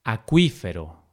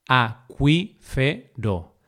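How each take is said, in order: First: Said in the usual way. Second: Acuífero broken slowly into a, cuí, fe, ro; syllable by syllable. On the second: Shown as a demonstration. Teacher dividing acuífero for learners, syllable by syllable. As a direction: say "acuífero" as four separate syllables.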